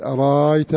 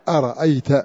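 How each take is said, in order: First: The middle glottal stop becomes a long vowel. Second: The middle glottal stop is said fully. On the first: This is one of Warsh's readings. "وورش بالإبدال أرأيت" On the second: This is the reading of the majority. "بعضها بألف مهموسة أرأيت"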